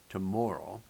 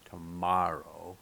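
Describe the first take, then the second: First: The stressed vowel sounds like 'oh'. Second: The stressed vowel sounds like 'ah'.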